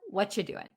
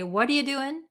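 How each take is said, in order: First: The word 'are' is dropped almost entirely. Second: The words run together with reduced sounds. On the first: "Or what you doing?" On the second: "They're going to say"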